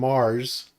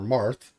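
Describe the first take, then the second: First: The word ends with a plain s sound. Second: The word ends with a lisped th sound.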